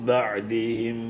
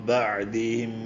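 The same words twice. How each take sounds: Both takes have the same delivery.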